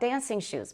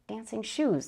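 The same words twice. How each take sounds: First: The stress falls on the word dancing. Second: The stress falls on the word shoes. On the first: Shoes made for dancing. "compound noun stress" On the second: Shoes that are themselves dancing. "That's like Disney"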